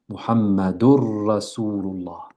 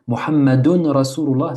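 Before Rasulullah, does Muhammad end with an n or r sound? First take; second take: r sound; n sound. First: The n merges fully into the following r. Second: An n sound is heard before the r. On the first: "On a donc idgham" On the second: "on dit Muhammadun Rasulullah"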